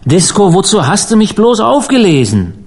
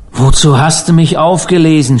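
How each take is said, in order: First: High, wailing reproach; anguished moan. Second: Restrained, moaning reproach; moaned. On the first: Rescued stranger pleads with Disco, anguished high wail. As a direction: wail it, climbing high on "bloß" and falling away. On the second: Rescued stranger asks why he was saved, understated moan. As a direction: groan the question with mild despair, falling at the end. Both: A narrator's reading. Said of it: "stöhnte der Fremde".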